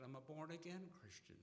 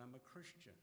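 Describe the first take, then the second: First: Born-again pushed higher and louder; proud stress on born-again, higher and louder; emphatic repeat. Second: Said in the usual way. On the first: Retold or imitated. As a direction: lean hard on born-again, voice up. Repeats claim with added emphasis.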